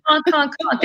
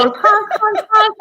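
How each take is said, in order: First: Raised honks, duck imitation; duck honking voice. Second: Much higher honks, goose imitation; goose honking voice. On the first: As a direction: honk like a duck for kids. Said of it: "The duck goes". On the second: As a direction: honk like a silly goose. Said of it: "The goose goes".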